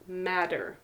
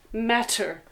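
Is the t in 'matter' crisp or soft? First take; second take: soft; crisp. First: The t is softened into a quick d-like tap. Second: The t is said as a clear, crisp t. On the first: "But in the United States, we say matter" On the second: "The correct pronunciation here is matter because we have T"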